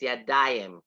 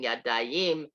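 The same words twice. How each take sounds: First: The stress is on the middle syllable. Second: The stress is on the last syllable. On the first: The speaker calls it right. "The emphasis on the da, not the yim" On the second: The speaker calls it wrong. "instead of saying"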